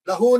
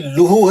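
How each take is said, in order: First: The vowel after the L is 'a'. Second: The vowel after the L is 'u'. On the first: The speaker calls it wrong. "लहू नहीं, लहू जबर नहीं है भाई" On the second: The speaker calls it right. "ये लूहू है, लूहू सही करे"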